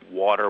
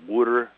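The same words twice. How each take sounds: First: Said in the usual way. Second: Philadelphia water said like wooder, rounded oo, flapped d; Philly local saying water as wooder; Philadelphia accent. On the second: Shown as a demonstration. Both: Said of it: "We have this we call water".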